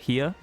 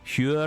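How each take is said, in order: First: It is said in a standard, non-Welsh accent. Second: It is said in a Welsh accent, like 'your'. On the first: "as opposed to here" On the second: "the Welsh kind of pronounces it almost more like the word your"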